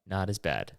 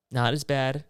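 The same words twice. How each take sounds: First: Said in the usual way. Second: Louder, stressed "as" in "Not as bad"; emphatic. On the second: Shown as a demonstration. Comic correcting himself, punches "as" in "Not as bad". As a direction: lean hard on "as" in "Not as bad". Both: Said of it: "Still annoying?".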